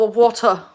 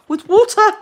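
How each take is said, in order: First: Said in the usual way. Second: Water in a high, loud, put-on English accent; a jokey, overdone English accent on water; bad English accent. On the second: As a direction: say water like a hammy Brit, wɔtə with no r. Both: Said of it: "I have a really bad English accent".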